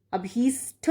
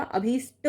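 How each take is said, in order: First: अभीष्ट ending in a puffed retroflex ṭh; wrong aspirated ending. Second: अभीष्ट ending in a dry retroflex ṭ; correct unaspirated ending. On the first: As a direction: say अभीष्ट as abheesṭha, with breath on the ṭ. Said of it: "नहीं होता". (अभीष्ट के अंत में महाप्राण ठ) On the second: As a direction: say अभीष्ट as abheesṭa, no puff of breath. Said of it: "होता है टा". (अभीष्ट के अंत में अल्पप्राण ट) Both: Shown as a demonstration.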